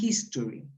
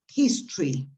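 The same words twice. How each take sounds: First: The vowel before the R is fully pronounced. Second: The vowel before the R is dropped. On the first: The speaker calls it wrong. "not history" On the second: The speaker calls it right. "you eliminate the O. So what you actually pronounce is history"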